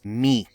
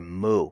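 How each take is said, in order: First: The word is said with an 'ee' vowel. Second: The word is said with an 'oo' vowel. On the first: This is how it is said in Greek itself. "The real pronunciation in Greek is mi" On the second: This is the traditional scholarly pronunciation. "pronounced in the Erasmian tradition as mu"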